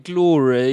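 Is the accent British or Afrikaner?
British. It is said in a British accent.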